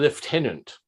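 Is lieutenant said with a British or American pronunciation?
British. It is said with a British pronunciation. The speaker calls it right. "be certain to pronounce it correctly"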